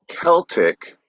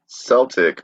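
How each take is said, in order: First: The word begins with a hard K sound. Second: The word begins with a soft S sound. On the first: "pronounced with the hard C" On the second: "was once overwhelmingly the norm"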